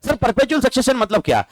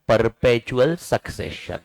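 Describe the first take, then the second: First: A higher, questioning student voice asking what perpetual succession means. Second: perpetual succession spelled out slowly, each word weighted; slow key term. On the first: Pretend. Teacher plays student asking about perpetual succession, higher. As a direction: play the curious student, pitch up. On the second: Shown as a demonstration. Teacher drilling key term perpetual succession, slow and weighted. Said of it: "company का एक concept याद रखना".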